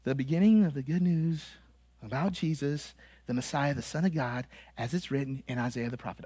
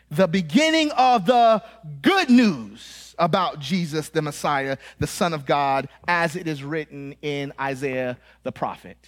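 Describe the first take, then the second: First: Soft, low, underplayed Bible reading; dull home reading. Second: Emphatic scripture reading. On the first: Preacher imitating listeners' home Bible study, soft listless reading. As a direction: mumble through the verse with no emphasis. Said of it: "you probably read it like this". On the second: Preacher showing the congregation how Mark opens, emphatic reading. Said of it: "none of you read it like that". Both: Shown as a demonstration.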